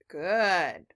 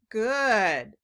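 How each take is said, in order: First: The vowel is a short uh sound. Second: The same.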